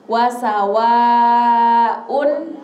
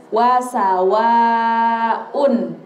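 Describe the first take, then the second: The two takes are said the same way.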